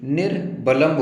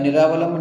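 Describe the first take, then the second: First: निर्वलंब slowly split, nir, balamb; correct form. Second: निरावलंब with a long raa, ni-raa-va-lamb; wrong form. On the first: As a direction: close the first syllable of निर्वलंब on r, then pause. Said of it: "बल्कि निर्वलंब होता है". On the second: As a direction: open a full aa after the r in निरावलंब. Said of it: "निरावलंब नहीं होता". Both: Shown as a demonstration.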